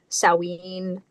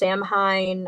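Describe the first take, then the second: First: It is pronounced the Scottish way. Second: It is pronounced the American way. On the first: "in Scotland they pronounce it Samhain" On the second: "in America it's pronounced Samhain"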